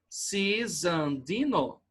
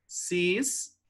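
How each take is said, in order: First: "Cisandino" slowly as ci-san-di-no; correct syllable split. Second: "Cisandino" as cis... an... di... no, long pauses; wrong syllable split. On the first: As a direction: break "Cisandino" after the first i: ci, san, di, no. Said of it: "correto aqui". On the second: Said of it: "separar pela pronúncia, como ficaria". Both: Shown as a demonstration.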